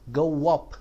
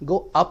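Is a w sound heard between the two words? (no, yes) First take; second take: yes; no. First: A w sound links go to up. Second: No w sound links go to up. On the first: The speaker calls it right. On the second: The speaker calls it wrong. "नहीं"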